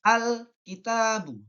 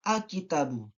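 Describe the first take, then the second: First: The L sound before k is clearly heard. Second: The L sound before k is dropped. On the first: The speaker calls it right. "harus jelas atau biasa disebut izhar" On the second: The speaker calls it wrong.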